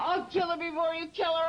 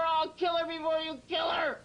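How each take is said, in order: First: Fast furious threat; angry threat. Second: Fast furious shout; shouted threat. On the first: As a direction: snarl it fast and hard. Violent alter Enigma threatens. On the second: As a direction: yell the threat. Violent alter Enigma repeats threat. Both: Real, not acted.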